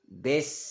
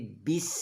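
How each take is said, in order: First: The vowel sounds like 'eh'. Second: The vowel sounds like 'ee'. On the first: The speaker calls it wrong. "bes jadi bis" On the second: The speaker calls it right. "jadi bis"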